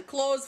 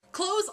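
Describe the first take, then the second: First: Said in the usual way. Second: Clothes? asked with a higher rise; questioning tune. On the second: Shown as a demonstration. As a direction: lift Clothes? like picking the topic up. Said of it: "Clothes, food".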